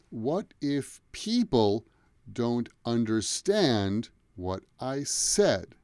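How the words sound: The nouns and verbs carry clear stress. The speaker calls it right. "there's a sentence where I'm stressing the nouns and the verbs"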